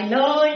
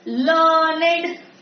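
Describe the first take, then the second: First: The word is said as one syllable. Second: The word is said as two syllables. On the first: It is the verb form. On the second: It is the adjective form.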